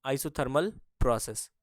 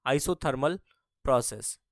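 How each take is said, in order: First: Isothermal process drawn out slowly, word by word; slow, spelled-out repeat. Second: Said in the usual way. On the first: Shown as a demonstration. Teacher slowly repeating the term for the class. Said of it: "ये isothermal process को हिंदी में".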